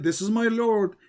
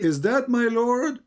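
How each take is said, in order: First: "This is my Lord" with a confident falling end; statement. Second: "Is that my Lord?" rising to a questioning end. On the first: Host citing the verse to the caller as a statement. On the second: Host mocking the caller's questioning reading. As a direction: ask "Is that my Lord?" with a clear rise. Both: Shown as a demonstration. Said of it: "He didn't say".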